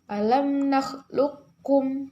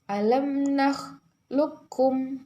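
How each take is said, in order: The two takes are said the same way.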